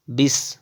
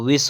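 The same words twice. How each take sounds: First: विष starting with b; closed-lip b opening विष; wrong pronunciation. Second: विष starting with v; correct pronunciation. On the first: Teacher showing the error, विष as bis. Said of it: "विष नहीं होता है". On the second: Teacher correcting, विष as vis. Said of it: "विष होता है". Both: Shown as a demonstration.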